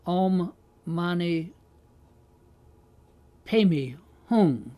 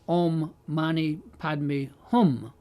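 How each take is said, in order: First: It is pronounced the Tibetan way. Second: It is pronounced the original Sanskrit way. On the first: This is the form that drifted over the years. "the Tibetans pronounce it" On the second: This is the original form. "the real Sanskrit is something like"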